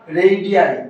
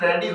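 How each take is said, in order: First: The word ends in an 'eye' sound. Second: The word ends in an 'ee' sound. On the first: The speaker calls it right. "इसका correct pronunciation" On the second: The speaker calls it wrong. "नहीं साथियों।"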